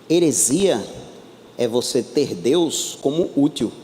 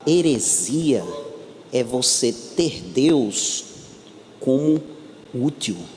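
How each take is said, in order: First: The sentence is spoken at a normal pace. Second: The sentence is spoken more slowly.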